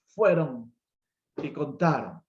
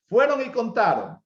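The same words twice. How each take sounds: First: Fueron alone, long pause, then y contaron; slow spaced repeat. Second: Fueron y contaron said high and loud, Fueron punched; emphatic. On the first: Preacher repeating the herders' report with a long pause. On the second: Preacher stressing that the herders went and told, loud and high. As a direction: hammer Fueron y contaron home. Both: Shown as a demonstration.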